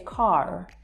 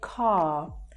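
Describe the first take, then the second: First: The final r sound is pronounced. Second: The final r sound is silent. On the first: "They would say car. So you actually hear the final R sound" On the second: "we don't actually pronounce that R there"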